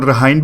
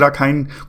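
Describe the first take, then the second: First: The k sound is left out entirely. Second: The k sound is clearly pronounced. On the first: "केस silent आता है तो रहाइन भी बोलते हैं" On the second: "कुछ भी बोल लीजिए"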